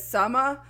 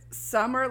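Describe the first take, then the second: First: Put-on "summer" with the final r dropped, Jersey accent; New York-New Jersey accent. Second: Said in the usual way. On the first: Mimicking the movie kid, "summer" r-less in Jersey accent. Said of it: "this particular accent". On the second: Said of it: "and he says summer".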